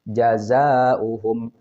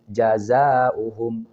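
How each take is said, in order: No difference in how they are said.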